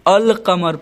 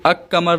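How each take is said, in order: First: The L is pronounced before the Q. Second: The L is dropped and the Q is doubled. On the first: The speaker calls it right. "बल्कि अल कमर पढ़ता हूँ" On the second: The speaker calls it wrong. "इसको अक कमर नहीं"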